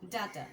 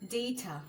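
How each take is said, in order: First: The first vowel sounds like 'ah'. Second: The first vowel sounds like 'ay'. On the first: The speaker calls it wrong. "Not ডাটা" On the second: The speaker calls it right. "the pronunciation is ডেটা"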